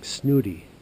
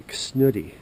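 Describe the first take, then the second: First: Snooty, repeated loud with a falling finish; savoring a word. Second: Snooty, said louder and drawn out; savoring a word. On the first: Tasting the word snooty, louder. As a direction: punch snooty. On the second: Relishing the word snooty, said loud. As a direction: land hard on snooty. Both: Shown as a demonstration. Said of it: "Sounds like a good word for him".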